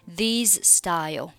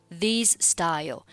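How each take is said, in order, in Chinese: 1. 'these' 的结尾 z 音要单独发出来。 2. 'these' 的结尾 z 音要单独发出来。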